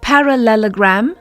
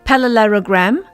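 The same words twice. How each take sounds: First: The L and R sounds are in place. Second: The L and R sounds are mixed up. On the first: The speaker calls it right. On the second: The speaker calls it wrong.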